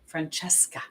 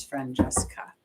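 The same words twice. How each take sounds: First: "Francesca" said carefully as fran-CHESS-ka; careful softer repeat of "Francesca"; corrected name. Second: Francesca said quickly and half-swallowed, as "Fran-eska"; a slurred first go at "Francesca"; first try at the name. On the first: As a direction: say "Francesca" again, clearly, with a ch sound. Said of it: "And the final is Francesca". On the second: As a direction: rush through "Francesca" without the ch sound. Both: Shown as a demonstration.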